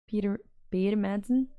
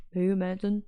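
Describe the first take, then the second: First: Said in the usual way. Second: Put-on Danish accent. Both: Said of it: "Nailing the Danish accent".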